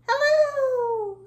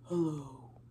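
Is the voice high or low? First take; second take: high; low. First: It is said in a very high voice. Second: It is said in a very low voice.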